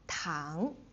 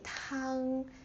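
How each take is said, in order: First: The pitch rises from middle to high. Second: The pitch stays high and level. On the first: It means sugar. "the second tone is like going from your neutral tone, neutral pitch to the highest. So going up" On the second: It means soup. "If you say tang, like the first tone, it means soup"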